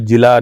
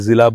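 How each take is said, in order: First: The word begins with a 'j' sound. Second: The word begins with a 'z' sound. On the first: The speaker calls it wrong. "जिला नहीं बोलते" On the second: The speaker calls it right. "ज़िला बोलते हैं"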